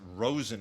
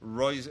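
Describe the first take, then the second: First: The first vowel sounds like 'oh' in 'rose'. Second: The first vowel sounds like 'oy' in 'boy'. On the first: "I guess Rosen is how you're supposed to pronounce it" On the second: "this is specifically Roizen"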